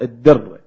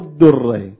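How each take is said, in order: First: The first vowel is an i sound. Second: The first vowel is not an i sound. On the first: The speaker calls it right. "الضبط الدرة. بكسر الدال" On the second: The speaker calls it wrong. "مو الدرة"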